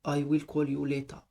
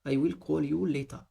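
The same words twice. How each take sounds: Both takes have the same delivery.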